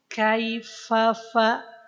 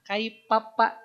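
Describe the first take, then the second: First: The consonant is an f with breath. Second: The consonant is a p with no breath. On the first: The speaker calls it right. "Harusnya ... Keluarkan nafasnya" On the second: The speaker calls it wrong. "Kaipapa itu tidak tepat"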